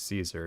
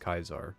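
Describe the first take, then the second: First: The name begins with an S sound. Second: The name begins with a K sound. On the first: It is the view from the NCR's side. "from the N C R's perspective, he's Caesar" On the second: It is the view from the Legion's side. "from the Legion's perspective, he's Kaiser"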